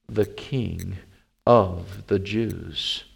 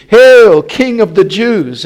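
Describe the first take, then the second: First: Slow, low, soft reading; solemn inscription. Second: Loud, high hailing cry; mock salute. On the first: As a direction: space out each phrase gravely. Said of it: "his accusation was written over". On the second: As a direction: hail him with a big mocking shout. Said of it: "began to salute him". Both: A narrator's reading.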